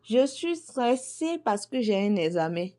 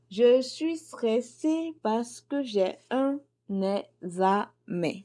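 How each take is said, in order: First: Said in the usual way. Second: Slow, tense, drawn-out worry; stressed. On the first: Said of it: "Je vous donne un exemple". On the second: Shown as a demonstration. Teacher acting out a student worried about an exam, slow and tense. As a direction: sound like the exam is tomorrow. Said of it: "dédicace est faite pour les étudiants".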